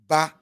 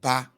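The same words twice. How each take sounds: First: The voice stays at an even middle pitch. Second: The voice is lowered to a low pitch.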